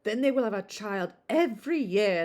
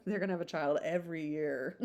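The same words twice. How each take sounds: First: Lightly voiced matron stressing every; gossipy matron. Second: Said in the usual way. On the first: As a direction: chatter it as the busybody. First take, in character.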